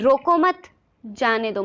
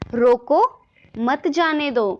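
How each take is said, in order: First: There is a pause after 'mat'. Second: There is a pause after 'roko'.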